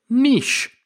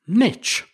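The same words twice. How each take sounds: First: The word is said the British, French-derived way. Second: The word is said the American way. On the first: "that's the original French pronunciation of the word" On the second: "if you're joining us from over in the States"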